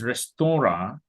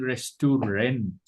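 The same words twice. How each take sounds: First: Restaurant ending in an open vowel, T silent; French pronunciation. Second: Restaurant as written, ending in a clear -rent; spelling pronunciation. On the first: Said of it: "you must pronounce it". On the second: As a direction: say "restaurant" with its final T. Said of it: "in spelling". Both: Shown as a demonstration.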